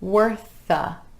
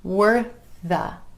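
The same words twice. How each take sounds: The two takes are said the same way.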